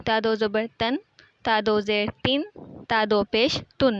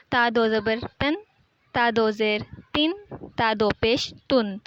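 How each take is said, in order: First: تن with a distinct final ن, steady; nunation demo repeated. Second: تن said with a clear ن at the end; nunation demo. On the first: Teacher repeating تن endings for student. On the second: Teacher demonstrating تن endings to student, clear. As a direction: land the final n of تن clearly. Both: Shown as a demonstration. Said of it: "نون کی آواز اینڈ پہ آئے گی".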